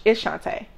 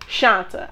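First: Shantae ending in "tay"; correcting with a clear "tay" ending on Shantae; corrected name. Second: Shanta ending in a short "uh"; quoted wrong name, Shanta, "SHAHN-tuh"; mispronounced name. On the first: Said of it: "I said". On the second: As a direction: say Shanta with an unstressed "tuh" at the end. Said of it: "the boy calls me". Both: Retold or imitated.

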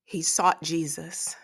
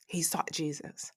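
First: Said in the usual way. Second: Whispered repeat; soft whispered echo; hushed emphasis. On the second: Real, not acted. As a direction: drop to a whisper to drive it home. Repeated line, whispered for effect.

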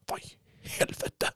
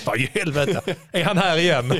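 First: Imitated irritation under the breath; hushed irritated swearing. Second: Higher voice, imitating annoyance through laughter; laughing mock irritation. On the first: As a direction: whisper it like an annoyed runner. Mimics an irritated runner's reaction. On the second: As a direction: mimic the annoyed runner, amused. Replays irritated runner's reaction, joking.

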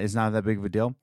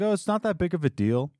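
First: Said in the usual way. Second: Higher, quick dismissive mock boss; mocking the owner. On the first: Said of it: "he said that". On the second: Mocking the owner shrugging it off, higher and quick. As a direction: brush it off like he doesn't care. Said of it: "And he's like".

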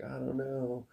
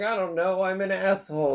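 First: Soft, faint I don't know; quiet, dazed answer. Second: High, upset I don't know; agitated confession. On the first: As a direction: mumble it, defeated. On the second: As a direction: blurt it out, ashamed. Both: Retold or imitated. That's what happened first.

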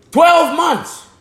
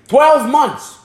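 First: "twelve months" lifted much higher, stress on "twelve"; preacher pressing "twelve months" higher; emphatic repeat. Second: Said in the usual way. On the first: Acted. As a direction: hit "twelve" high to drive it home. Repeats phrase, second higher.

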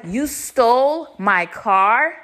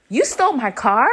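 First: STOLE stretched out, whole line slow and rising; slow repeated accusation. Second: Incredulous rising accusation; storming accusation. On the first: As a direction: spell it out slowly, leaning on "stole". Repeating accusation after his what. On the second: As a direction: throw it as an accusing question. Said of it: "I storm up to". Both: Retold or imitated.

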